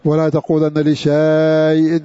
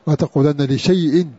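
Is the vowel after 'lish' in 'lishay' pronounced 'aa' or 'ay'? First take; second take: aa; ay. First: The written alif is voiced as a long 'aa'. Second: The written alif is silent, giving 'ay'. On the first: The speaker calls it wrong. "هذا لحن، هذا أخطأت يا عبد الله" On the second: The speaker calls it right. "عندي ألف هنا ثابتة لا تقرأ"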